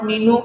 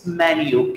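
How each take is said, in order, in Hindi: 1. पहला शब्दांश 'mee' जैसा सुनाई देता है। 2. पहला शब्दांश 'men' जैसा सुनाई देता है। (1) "it's not मीनू" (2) "it's मैन यू"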